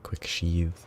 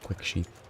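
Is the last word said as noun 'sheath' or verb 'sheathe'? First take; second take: verb sheathe; noun sheath. First: The last word sounds like the verb sheathe. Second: The last word sounds like the noun sheath. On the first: The sheathing action is what is quick. The speaker calls it right. "So I should definitely say quick sheath" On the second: The sheath itself is what is quick. The speaker calls it wrong. "not quick sheath"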